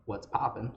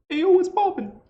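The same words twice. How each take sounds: First: Said in the usual way. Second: Much higher, louder goblin voice on Hey, yo, what's poppin'; Jabu's voice. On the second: Shown as a demonstration. Teacher shows students how Jabu says it, high and loud. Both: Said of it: "would actually come out like".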